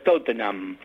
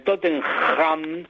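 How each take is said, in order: First: "Tottenham" as TOT-nam, with the H silent; "Tottenham" softened to "Tottenam", no throaty rasp; English pronunciation. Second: "Tottenham" with a harsh Spanish J for the H; "Tottenham" misread the Spanish way, guttural drawn-out "-ham"; choking on the J. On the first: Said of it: "en inglés se pronuncia". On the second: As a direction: say "Tottenham" as Totten-JAM, rasping the J in the throat. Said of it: "no se atraganten con la J". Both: Shown as a demonstration.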